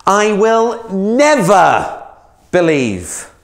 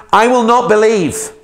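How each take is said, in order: First: Never stretched very slowly, higher and louder; emphatic never. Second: Not hit hard, higher and louder; stress on not. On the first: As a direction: lean hard and long on never. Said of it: "even more emphatic than that". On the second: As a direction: slam the word not. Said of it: "he spits out some venom". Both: Acted.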